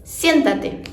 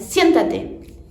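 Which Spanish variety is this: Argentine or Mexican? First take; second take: Mexican; Mexican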